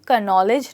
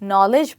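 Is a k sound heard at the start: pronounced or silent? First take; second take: pronounced; silent. First: A k sound is heard at the start. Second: The word starts with an n sound. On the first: The speaker calls it wrong. "कनॉलेज नहीं" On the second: The speaker calls it right. "के, वो silent letter है"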